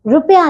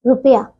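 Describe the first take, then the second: First: रुपया squashed into "rupya"; mispronounced रुपया. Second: Said in the usual way. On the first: Shown as a demonstration. Teacher shows pupils the error, misspoken vowels in रुपया. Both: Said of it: "नहीं".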